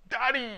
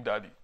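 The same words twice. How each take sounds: First: Put-on high, loud childhood yell for Daddy; practised shout. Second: Said in the usual way. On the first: Shown as a demonstration. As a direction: belt out the call to your father. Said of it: "I was the master of doing". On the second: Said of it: "of doing".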